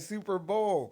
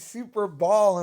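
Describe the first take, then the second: First: The second word is said like bowl. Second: The second word is said like ball. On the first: The speaker calls it right. "instead of Super Bowl" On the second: The speaker calls it wrong. "why is he saying Super Ball"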